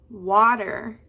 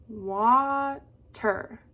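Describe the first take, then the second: First: Water with the WA punched loud, falling on TER; water, strong first syllable, falling second; accent on first syllable. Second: Water split into a long WA, then TER; water drawn out as waaa, ter; broken into syllables. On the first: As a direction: stress the WA in water. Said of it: "does your voice go up". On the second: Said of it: "break up the word". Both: Shown as a demonstration.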